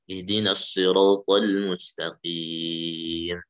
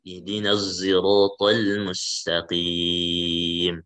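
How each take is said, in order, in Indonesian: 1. Huruf s dalam sirat adalah s emfatik yang berat. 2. Huruf s dalam sirat condong ke bunyi z. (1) "So dulu" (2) "yang ketiga dengan ismam"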